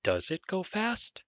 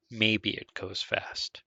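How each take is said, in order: First: High pitch, rising on "fast"; question inflection. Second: Said in the usual way. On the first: Shown as a demonstration. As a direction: ask it clearly, voice climbing up to "fast". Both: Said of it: "so that makes this a question".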